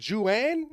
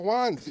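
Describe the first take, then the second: First: "Juan" mispronounced as joo-AN, high and questioning; mocked anglicized pronunciation. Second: Said in the usual way. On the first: Comic mocking locals' pronunciation, "Juan" as a high joo-AN. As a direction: say "Juan" with an English J in two syllables, joo-AN. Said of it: "what do you call Juan?". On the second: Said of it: "you guys pronounce it like it's a vegan bakery".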